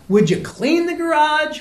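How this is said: The request is asked in an exasperated, insistent tone. The request has been made before.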